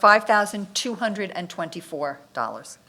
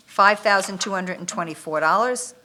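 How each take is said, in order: First: Repeated a bit slower for clarity. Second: Rattled off quickly; quick reading of a bid amount; said too fast. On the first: Bid reader repeats the amount more slowly for the listener. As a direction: say it again, more carefully. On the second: Bid reader rattles off the amount too fast. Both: Real, not acted. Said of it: "you said that fast".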